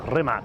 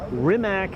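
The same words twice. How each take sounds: First: The name is said with European-style pronunciation. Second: The name is said with English-style pronunciation. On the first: "that's more kind of European pronunciation of it" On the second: "I would say in English"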